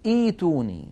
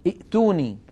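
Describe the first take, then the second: First: "ايتوني" with the hamza softened into a long ii; correct long i. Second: "ائتوني" with a clipped hamza stop before the t; quoting speakers who say "ائتوني" with the hamza; wrong hamza pronunciation. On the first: Shown as a demonstration. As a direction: say "ايتوني" flowing, no glottal stop. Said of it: "بل تقول". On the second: Retold or imitated. Teacher imitating speakers' wrong hamza. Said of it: "المتكلمين أو كذا يقول مثلًا".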